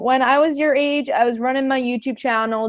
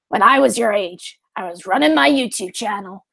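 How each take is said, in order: First: It is read in the speaker's normal voice. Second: It is said in a put-on old woman's voice.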